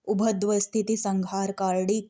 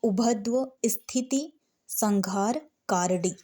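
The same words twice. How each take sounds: First: It is read fluently in one continuous flow. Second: It is read in small chunks with pauses. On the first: This is how an experienced reader reads it. "जो पहली बार पढ़ रहा होगा वो ऐसे नहीं पढ़ पाएगा" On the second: This is how a beginner should first read it. "छोटे छोटे शब्दों में ... ऐसे पढ़ना है"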